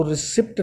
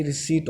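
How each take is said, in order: First: "रिसिप्ट" with short i and audible p; wrong sounded P. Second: "रिसीट" with long ee and no p; correct silent P. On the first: Teacher warning students how not to say it, sounded P. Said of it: "तो रिसिप्ट नहीं होता". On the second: Teacher giving students the correct form, silent P. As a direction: drop the p, say "रिसीट" as ri-seet. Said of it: "ये रिसीट होता है". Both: Shown as a demonstration.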